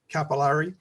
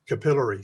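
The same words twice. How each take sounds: First: It is said the American way. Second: It is said the British way.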